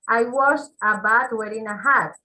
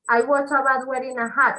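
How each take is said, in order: First: The sentence is said slowly and carefully. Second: The sentence is said quickly and smoothly. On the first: "Ahí hacemos una pausa" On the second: "Debe ser lo más rápido posible"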